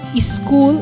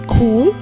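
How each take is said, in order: First: An extra vowel comes before the s. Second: The word starts directly with the s. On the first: The speaker calls it wrong. "they say is instead of sir" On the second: The speaker calls it right. "the correct way"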